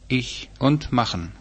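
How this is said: It is said in the southern dialect form. "südlich"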